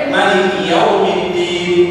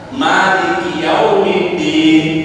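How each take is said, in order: First: The vowel after the first m is short. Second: The vowel after the first m is long. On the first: It means owner of the Day of Judgment. "Ada yang pendek" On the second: It means king of the Day of Judgment. "Ada yang mimnya panjang"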